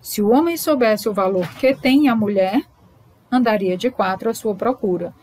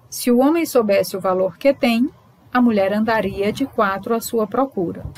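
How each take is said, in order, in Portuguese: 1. Há uma pausa logo depois de 'mulher'. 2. Há uma pausa logo depois de 'tem'. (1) "A pausa agora é depois de mulher" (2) "a pausa é logo depois de tem"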